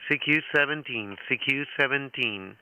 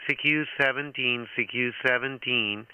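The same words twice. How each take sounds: The two takes are said the same way.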